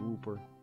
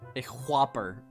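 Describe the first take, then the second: First: The first vowel is a long 'oo' sound. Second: The first vowel is a short 'o' sound. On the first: The speaker calls it wrong. "Too many O's?" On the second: The speaker calls it right. "My bad"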